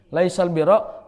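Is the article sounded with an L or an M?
L. The article is pronounced with an L sound.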